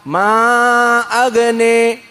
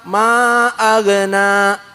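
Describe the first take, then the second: First: The final vowel is tilted toward an 'e' sound. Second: The final vowel is an open 'a' sound. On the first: "tapi dibaca ma'agne" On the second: "tidak dibaca ma'agna"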